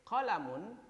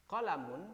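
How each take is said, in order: The two takes are said the same way.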